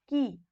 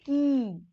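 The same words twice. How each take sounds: First: 'की' said short and light; just a brief, light ee on 'की'. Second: 'की' with a long, held ee. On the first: Teacher showing learners the small vowel sign, 'की' kept short. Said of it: "हल्का सा". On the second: Teacher showing learners the big vowel sign, 'की' drawn long. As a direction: stretch the vowel of 'की' right out. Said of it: "तो ये हो जाएगा". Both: Shown as a demonstration.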